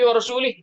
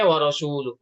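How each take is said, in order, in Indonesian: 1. Kata rasul diakhiri dengan vokal i. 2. Kata rasul diakhiri dengan vokal u. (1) "itu salah, ya salah fatal" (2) "harusnya wa rasuluh"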